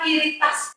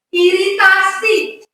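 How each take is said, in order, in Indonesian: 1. Kata ini berakhir tanpa suku kata terakhirnya. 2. Kata ini berakhir dengan suku kata terakhir yang lengkap. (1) "bukan iritas kulit" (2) "Pelafalannya itu harus jelas"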